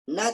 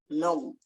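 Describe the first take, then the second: First: The syllable is pronounced thin and light. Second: The syllable is pronounced thick and heavy. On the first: The speaker calls it right. "na tarqiq" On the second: The speaker calls it wrong. "Enggak kita bilang now"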